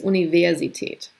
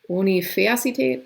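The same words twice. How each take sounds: First: The V is pronounced like an English V. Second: The V is pronounced like an F sound. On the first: The speaker calls it right. "no, it's Universität. So you will see the V pronounced like English V" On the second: The speaker calls it wrong. "If it followed this rule, like Vater, für"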